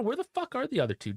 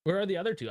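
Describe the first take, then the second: First: Much higher and faster, exasperated. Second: Said in the usual way. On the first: Real, not acted. To chat, fed up with missing defenders, exasperated outburst. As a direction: blurt it out in disbelief.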